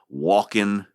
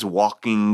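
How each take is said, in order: First: The final g sound is left off. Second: The final g sound is clearly pronounced. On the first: This is how everybody actually says it. "without enunciating the final G" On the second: Nobody really says it this way. "nobody says walking"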